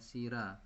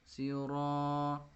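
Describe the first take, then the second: First: The r is said thin and light. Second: The r is said thick and heavy. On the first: The speaker calls it wrong. "Jangan dibaca sira" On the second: The speaker calls it right. "dibaca siro tafkhim, tebal ya"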